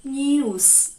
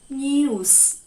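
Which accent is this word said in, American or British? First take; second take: British; British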